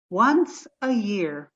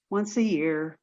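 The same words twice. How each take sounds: First: "once" drawn out and weighted, the rest slowed; "once" stretched, said like a vow; slow stress on once. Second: Said in the usual way. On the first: Acted. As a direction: linger heavily on "once a year". Repeats the phrase, slowing on once.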